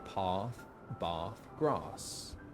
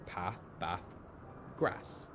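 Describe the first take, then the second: First: It is said in a southern English accent. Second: It is said in a northern English accent.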